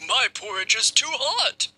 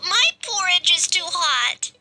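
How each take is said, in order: First: The voice is deep and gruff. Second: The voice is high and squeaky. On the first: "in his deep, gruff voice" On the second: "in his squeaky voice"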